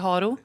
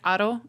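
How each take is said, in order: First: The name is said with a Swedish pronunciation. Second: The name is said with a Spanish pronunciation. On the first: "in Sweden we say Haro" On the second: "it's like Aro in Spanish"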